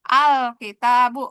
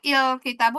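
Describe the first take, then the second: First: The word begins with an a vowel. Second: The word begins with an i vowel. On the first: The speaker calls it right. "selalu dibacanya fathah" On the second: The speaker calls it wrong. "nggak pernah"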